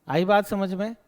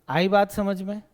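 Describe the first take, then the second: The two takes are said the same way.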